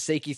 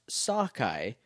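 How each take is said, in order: First: The name is said like 'Seiki'. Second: The name is said like 'Sakai'. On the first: The speaker calls it wrong. "this is how I read it the first time from iTunes" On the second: The speaker calls it right. "It's pronounced Sakai"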